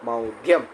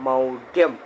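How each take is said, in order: The two takes are said the same way.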